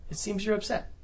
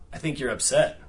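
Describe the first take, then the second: First: "It seems you're upset" lifted much higher, open and asking; curious, open "It seems you're upset" on a high rising tune; upward inflection, curious. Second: "I think you're upset" with the tune falling at the end; falling, knowing "I think you're upset"; downward inflection. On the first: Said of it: "one is kind of curious, open". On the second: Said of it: "downward inflection versus an upward inflection". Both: Shown as a demonstration.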